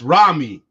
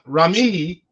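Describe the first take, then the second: First: The stress is on the first syllable. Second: The stress is on the second syllable. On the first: The speaker calls it right. "Ra is the main part, me is short" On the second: The speaker calls it wrong. "It's not Rami"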